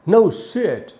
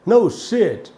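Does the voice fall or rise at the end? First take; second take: rise; rise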